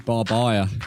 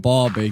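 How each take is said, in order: First: It is said with three syllables, ending in 'baya'. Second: It is said with two syllables, ending in 'bee'. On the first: The speaker calls it wrong. "Barbaya. Love that. Barbaya's a new one" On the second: The speaker calls it right. "Not Barbie"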